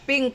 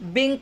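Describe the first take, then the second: First: The word begins with a voiceless P sound. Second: The word begins with a voiced B sound. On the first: The speaker calls it right. "ಪಿಂಕ್ ಅನ್ಬೇಕು" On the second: The speaker calls it wrong. "ಬಿಂಕ್ ಅಲ್ಲ"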